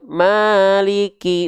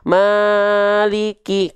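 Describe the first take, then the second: First: The long vowel is swung with rhythmic lilt. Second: The long vowel is stretched far too long. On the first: The speaker calls it right. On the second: The speaker calls it wrong.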